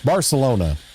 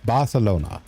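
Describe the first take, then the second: First: The c is said with an s sound. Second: The c is said with a th sound. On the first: "American English would be like" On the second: "Spain Spanish would be like"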